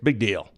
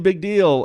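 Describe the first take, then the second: First: It sounds dismissive, treating it as unimportant. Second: It sounds impressed, treating it as important. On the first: This does not matter at all. "who cares? Big deal" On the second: This matters a lot. "wow, that's a really big deal"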